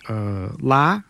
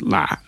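First: The syllable is said with a high rising tone. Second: The syllable is said with a low constricted tone. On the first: It means to leave. "with a high rising tone" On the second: It means strange. "with a low constricted tone"

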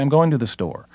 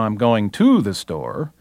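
First: The preposition 'to' is said without emphasis. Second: The preposition 'to' carries strong emphasis. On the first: The speaker calls it right. "They say" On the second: The speaker calls it wrong. "they put emphasis on a preposition where it shouldn't be"

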